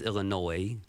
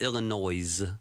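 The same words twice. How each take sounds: First: The final S sound is silent. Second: The final S sound is pronounced. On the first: The speaker calls it right. "It's silent. It's Illinois" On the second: The speaker calls it wrong. "it's not Illinois. There's no noise in Illinois"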